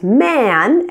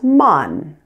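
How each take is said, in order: First: The vowel sounds like the one in 'cat'. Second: The vowel sounds like the one in 'cut'. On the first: The speaker calls it right. "the short A sound" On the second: The speaker calls it wrong. "you pronounce man as mun"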